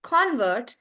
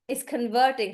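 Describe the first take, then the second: First: "Convert" with the stress on CON; noun stress. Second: "converting" with a stressed middle syllable; stress on VERT. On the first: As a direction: hit the first syllable of "Convert". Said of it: "that's why we say convert". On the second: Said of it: "the stress is on vert". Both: Shown as a demonstration.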